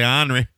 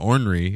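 First: It is said in a Southern pronunciation. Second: It is said in a spelling-like pronunciation.

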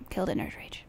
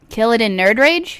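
First: It is said at a normal, quieter volume. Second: It is said more loudly.

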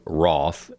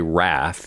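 First: It is said with a British accent. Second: It is said with an American accent.

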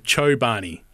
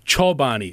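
First: The O glides like an Australian English vowel. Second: The O is a pure, steady vowel. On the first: This follows the Australian English way of saying it. The speaker calls it wrong. "that's like more of an English Australian thing" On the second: This follows the European way of saying it. The speaker calls it right. "If you want to pronounce it correctly in like most European languages, it'd be, the O would be O"

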